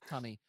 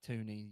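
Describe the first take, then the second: First: The first vowel is a short 'u' sound. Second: The first vowel is a long 'oo' sound. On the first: This is how the name really goes. The speaker calls it right. "it's like it is tunny" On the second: Other people get the name wrong. The speaker calls it wrong. "they say Toonie"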